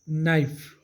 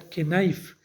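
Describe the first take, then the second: First: No k sound is pronounced at the start. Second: A k sound is pronounced at the start. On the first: The speaker calls it right. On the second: The speaker calls it wrong.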